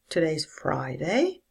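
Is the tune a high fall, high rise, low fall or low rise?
low rise. It starts low and rises up. It sounds like a question. "A low rise"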